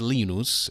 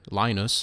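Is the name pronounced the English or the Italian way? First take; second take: Italian; English. First: The name is said with Italian pronunciation. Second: The name is said with English pronunciation. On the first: "It's pronounced in, in Italian as Linus" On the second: "Charles Schulz um, character Linus from Peanuts"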